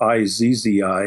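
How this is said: Z is said 'zee', the US way.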